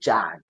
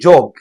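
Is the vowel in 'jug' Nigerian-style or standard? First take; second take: standard; Nigerian-style. First: Jug is said with a standard English vowel. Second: Jug is said with a Nigerian English vowel. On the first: The speaker calls it right. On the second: The speaker calls it wrong. "So don't say"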